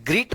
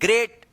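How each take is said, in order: First: The vowel sounds like 'ee'. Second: The vowel sounds like 'ay'. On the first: The speaker calls it wrong. "इसको ग्रीट मत पढ़िएगा" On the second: The speaker calls it right.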